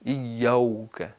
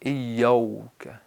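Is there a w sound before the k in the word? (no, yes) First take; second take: yes; yes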